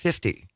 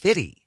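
First: The middle f sound is clearly pronounced. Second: The middle f sound is dropped. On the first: "I pronounced it 50" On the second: "my then co-host corrected me and said, no, it's Fitty"

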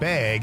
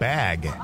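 First: It is said in a Wisconsin accent. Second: It is said in a standard accent.

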